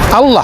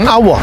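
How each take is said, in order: First: The word has an Arabic pronunciation. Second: The word has an Indonesian pronunciation. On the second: "bukan Allah"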